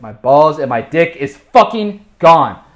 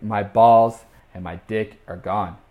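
First: FUCKING GONE hit loud, high and slow; exasperated emphasis. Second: Said in the usual way. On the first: Retold or imitated. Telling listeners there's no way to put it, loud emphasis on "fucking gone". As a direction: punch out "fucking gone" word by word, loudly. Repeats the loss with exasperated force.

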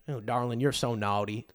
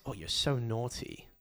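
First: Lower, soft Southern drawl. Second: Slow, soft British mock come-on. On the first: Retold or imitated. Host trying dirty talk as Americans, imitated Southern drawl. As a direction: put on a teasing American Southern accent. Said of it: "the Southern drawl". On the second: Host imitating British women's dirty talk, mock British accent. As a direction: imitate a naughty British woman, softly and slowly. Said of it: "Why do the Brits talk like school children?".

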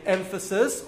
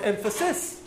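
First: EMPHASIS with stress on EM; first-syllable stress. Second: EMPHASIS stressed on the final SIS, rising; last-syllable stress. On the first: Teacher showing emphasis can move, first-syllable stress. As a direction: hit EM at the start of EMPHASIS. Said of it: "emphasis at the beginning of the word". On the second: Teacher showing emphasis can move, last-syllable stress. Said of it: "on the last syllable". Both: Shown as a demonstration.

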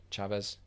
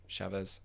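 First: Chavez with a hard ch, unsure rising tone; unsure pronunciation. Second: Chavez with a soft sh, settled falling tone; corrected pronunciation. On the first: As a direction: try Chavez as chah-vez, asking. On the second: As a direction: say Chavez as shah-vez, confirming. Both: Shown as a demonstration.

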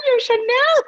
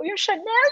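First: Alarmed shout. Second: Excited call. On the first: Retelling to the co-host her shout on set, a high alarmed yell. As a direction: repeat "yung Chanel!" louder and higher as a shout. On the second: Retelling her call to the co-host on set, a rising excited call. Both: Retold or imitated. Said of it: "Sabi ko".

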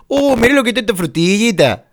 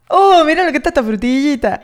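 First: Porteño exagerado, agudo y cantado; acento de Buenos Aires. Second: Intento risueño de acento porteño; acento de Buenos Aires imitado. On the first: Shown as a demonstration. (acento porteño de broma) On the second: Retold or imitated. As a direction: copia el deje de Buenos Aires riendo. (imitación porteña ligera) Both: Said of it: "eso de Buenos Aires tiene que decir".

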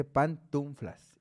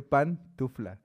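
First: Pantuflas dicho como pantunflas, con n antes de la f; pronunciado con n. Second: Pantufla dicho lento, sin n y claro; pronunciación correcta. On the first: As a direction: mete una n: pantunflas. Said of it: "la gente dice pantuflas". (pronunciación incorrecta con n) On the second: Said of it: "Se dice pantufla". (pronunciación lenta y correcta) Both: Shown as a demonstration.

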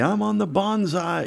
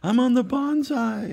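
First: A lightly voiced kid showing off; little brother bragging. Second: Put-on high, childish sing-song brag; little brother bragging. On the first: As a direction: crow it like a proud little boy. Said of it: "he would make a big deal out of it and say". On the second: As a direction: crow it higher like a proud little boy. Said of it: "He just made this up".

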